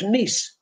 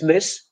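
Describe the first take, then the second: First: It is pronounced the Polish way. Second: It is pronounced the English way. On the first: "In Polish, miss" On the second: "In English, it's miss"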